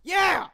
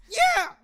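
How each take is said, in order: First: High, loud acted outburst; shouted yeah. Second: Very high, cracking shout. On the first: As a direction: shout it out without cracking. Shouted take beside voice crack take. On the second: Acted. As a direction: let a loud yell crack way up high. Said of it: "somebody said they like the voice crack one".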